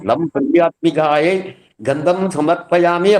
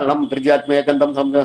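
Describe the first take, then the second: First: The mantra is recited slowly and deliberately. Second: The mantra is rattled off quickly.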